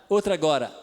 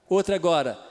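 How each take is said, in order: No difference in how they are said.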